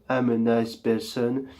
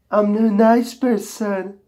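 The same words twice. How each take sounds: First: Low voice slipping in. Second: Pitched up, sweet and friendly; high nice voice. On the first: Host's nice claim slips into a low soft evil voice. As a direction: lower and softer, the old evil voice creeping back. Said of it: "Who changed my voice?". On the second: Host claims he is a nice person, high sweet voice. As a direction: chirp it like a harmless nice guy. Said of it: "It's my true voice". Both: Pretend.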